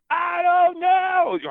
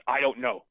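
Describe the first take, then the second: First: Loud, very high, slow rock-singer cry; high mock rock wail. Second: Said in the usual way. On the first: Repeats it as [name] tribute song.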